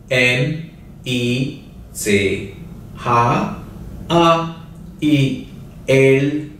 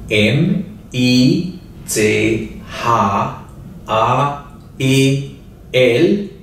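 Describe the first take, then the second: No difference in how they are said.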